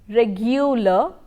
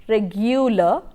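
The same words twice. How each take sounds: The two takes are said the same way.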